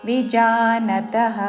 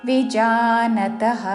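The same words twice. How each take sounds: No difference in how they are said.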